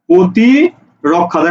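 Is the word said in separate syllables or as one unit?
one unit. The word is said smoothly without breaks.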